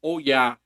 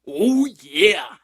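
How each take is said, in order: First: Said in the usual way. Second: Much higher, louder booming "Oh, yeah"; a loud, high mascot cry in a put-on voice; big Kool-Aid Man oh yeah. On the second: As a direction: blast it out like a cartoon mascot. Repeated catchphrase, second one big.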